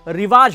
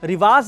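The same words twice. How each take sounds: First: The word ends with a 'j' sound. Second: The word ends with a 'z' sound. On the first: The speaker calls it right. "रिवाज होता है" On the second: The speaker calls it wrong. "रिवाज नहीं, उर्दू के हर लफ्ज में नुक्ता लगाना सही नहीं है"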